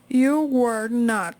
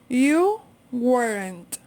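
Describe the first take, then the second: First: Were and not are said as two full words. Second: Were and not are joined into one syllable.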